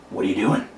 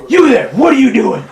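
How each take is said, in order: First: Low, softer questioning; restrained, lowered-voice demand; bandit up close. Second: Loud, high-pitched bandit shout; raised, demanding holler; shouted challenge. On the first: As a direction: quietly challenge the traveler. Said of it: "and he goes". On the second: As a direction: call out a stranger from a distance. Bandit challenges traveler on road. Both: Acted.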